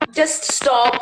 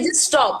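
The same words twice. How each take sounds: First: It is said in a casual, dismissive tone. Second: It is said in an angry, sharp tone. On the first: The speaker does not really care. "or it can be like just stop, yeah, whatever" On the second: The speaker is annoyed and demands it end. "So it can be an angry tone"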